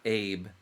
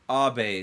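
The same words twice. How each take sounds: First: The name is said the American way. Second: The name is said the Japanese way. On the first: The speaker calls it wrong. "It's not American" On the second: The speaker calls it right. "It's Japanese"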